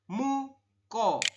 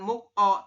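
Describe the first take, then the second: First: The k runs straight into the following vowel. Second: The k ends the first syllable, then the vowel. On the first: The speaker calls it right. "sesuai aturan baca" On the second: The speaker calls it wrong. "bukan muk O"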